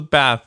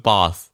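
First: It is said with an American accent. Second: It is said with a British accent.

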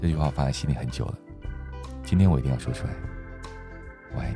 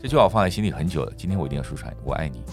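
First: It sounds soft, tender and trusting. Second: It sounds rational and businesslike, like negotiating.

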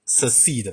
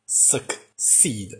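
First: The middle sounds like a single s sound. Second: The middle sounds like a k then s. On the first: The speaker calls it wrong. "你不会把成功这个字念成succeed 吧" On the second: The speaker calls it right. "你会念succeed"

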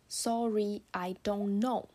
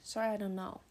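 First: Every sound is fully and crisply articulated. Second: The words are loose and lightly articulated. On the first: The speaker calls it wrong. "我的嘴型都开合标准到位" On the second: The speaker calls it right. "这就是很自然放松的念法"

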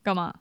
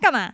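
First: It sounds low and impatient. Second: It sounds light and friendly.

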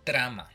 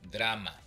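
First: The dr sound is harder and more crisp. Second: The dr sound is softer and less crisp. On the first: "我用了dr，就是我们第一组的发音……会稍微比较、比较硬、会比较听起来比较清楚一点" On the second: "用正常速度念它们了"

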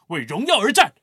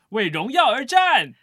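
First: It is said quickly and forcefully, without drawn-out sounds. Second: It is said weakly, with drawn-out sounds.

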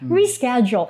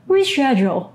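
First: It is said with an American accent. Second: It is said with a British accent.

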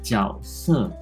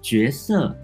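First: It is said with a Taiwanese pronunciation. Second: It is said with a mainland Chinese pronunciation. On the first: "台湾では" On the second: "中国では"

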